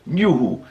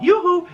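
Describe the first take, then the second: First: "Yoo-Hoo" in normal pitch, as a drink's name; New York pronunciation. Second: "Yoo-Hoo" called out high, second half leaping up; singsong calling "Yoo-Hoo". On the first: Showing the New York way, "Yoo-Hoo" spoken, not called. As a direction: say "Yoo-Hoo" as New Yorkers order it, no singsong. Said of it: "when you're out in New York". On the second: Showing how the drink isn't said, "Yoo-Hoo" as a high singsong call. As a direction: sing out "Yoo-Hoo" like hailing someone. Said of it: "not Yoo-Hoo, it's Yoo-Hoo". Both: Shown as a demonstration.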